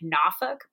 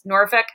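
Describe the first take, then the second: First: Norfolk is said the way locals say it. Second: Norfolk is said the usual outsider way. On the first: The speaker calls it right. "It's more like Norfolk" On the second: The speaker calls it wrong. "I did not pronounce it correctly"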